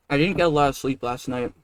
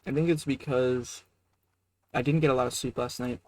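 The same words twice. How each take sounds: First: Chewing noisily. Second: Talking through a mouthful; words round a bite of food; chewing noisily. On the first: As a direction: mouth full while talking. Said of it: "I'm talking mouthful". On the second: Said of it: "I'm sorry to talk to my mouth full". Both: Real, not acted.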